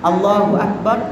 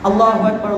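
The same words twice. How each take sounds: First: The phrase is said slowly and carefully. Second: The phrase is said quickly and rushed. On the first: The speaker calls it right. "আসলে তাকবীরটা হবে এভাবে" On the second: The speaker calls it wrong. "খুব দ্রুত করে ফেললাম"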